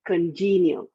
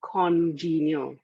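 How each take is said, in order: First: "congenial" with a weak kən first syllable and stress on JEE; correct pronunciation. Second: "congenial" slowly with a full stressed KON first syllable; wrong pronunciation. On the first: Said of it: "It's pronounced as a congenial". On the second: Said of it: "but you do not pronounce it as". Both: Shown as a demonstration.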